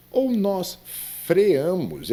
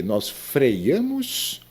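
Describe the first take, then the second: First: "freamos" drawn out as fre-A-mos; "freamos" slowly, no glide before the a; freamos without the i. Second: "freiamos" drawn out as frei-A-mos; "freiamos" with a clear y before the a; mispronounced freamos with an i. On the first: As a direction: go straight from e to a in "freamos". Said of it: "o correto seria". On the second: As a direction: slowly sound the extra i glide in "freiamos". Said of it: "não diga freiamos". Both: Shown as a demonstration.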